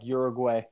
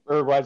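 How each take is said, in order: First: The word begins with a Y sound. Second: The word begins without a Y sound. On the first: The speaker calls it wrong. "there's no fucking Y in front of it" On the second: The speaker calls it right. "I love the way you say Uruguay"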